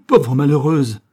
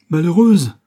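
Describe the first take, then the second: First: Loud, menacing cry; cried out. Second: Loud, high cry of alarm; cried out. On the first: The furious father cries at his daughter, a loud cry. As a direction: hurl it at her, full of dread. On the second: The father cries out at his daughter, a loud high cry. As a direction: cry out at her, appalled. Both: A narrator's reading. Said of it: "s'écria Martin Rigal".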